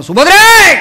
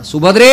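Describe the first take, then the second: First: Full-force, high warrior shout; lion's roar. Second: Loud call with rising end; raised, carrying summons. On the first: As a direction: roar her name like a war cry. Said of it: "सिंहनाद करणारा Arjun". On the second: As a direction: call her from across the palace. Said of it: "पहिला आवाज दिला". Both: Acted.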